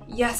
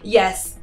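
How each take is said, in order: First: It is said in a croaky voice. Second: It is said in a clear, confident voice.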